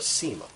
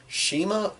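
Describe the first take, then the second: First: The name begins with an s sound. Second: The name begins with an sh sound. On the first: "Is it Shima or Sema?" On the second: "Is it Shima or Sema?"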